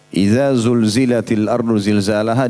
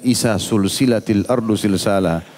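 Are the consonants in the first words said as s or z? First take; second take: z; s. First: The letters are said with z-like sounds. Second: The letters are all said with s sounds.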